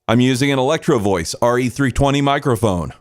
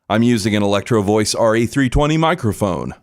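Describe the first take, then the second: First: The voice is dry, without compression or effects. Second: The voice is compressed and has effects added. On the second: "Both compressor and effects have been enabled"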